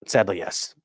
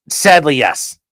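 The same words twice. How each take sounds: First: "Sadly, yes" repeated much softer and lower; soft mock-sad echo. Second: Said in the usual way. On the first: Shown as a demonstration. Streamer answering a viewer, echoing himself in a soft murmur. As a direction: let the second "Sadly, yes" sink into a murmur. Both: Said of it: "Are you telling me ... is cringe?".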